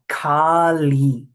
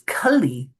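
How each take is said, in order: First: Both vowels are drawn out long. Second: Both vowels are kept short. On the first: It names the mother goddess. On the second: It names the demon of this age.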